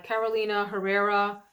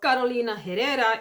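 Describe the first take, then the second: First: The name is said in a plain, everyday way. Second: The name is said with a spicy, flamboyant flair.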